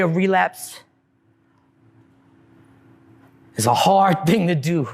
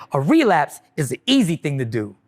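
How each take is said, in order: First: Said in the usual way. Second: Easy set apart as the key word; stress on easy. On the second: Shown as a demonstration. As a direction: lean on easy to correct yourself. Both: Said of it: "Well, let me correct that".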